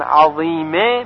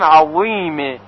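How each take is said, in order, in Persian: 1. صدای شبه z ساده و سبک است. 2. صدای شبه z سنگین و ضخیم است. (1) "به جای این که بگوییم عظیمه" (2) "میگوییم عظیمه با صدای درشت"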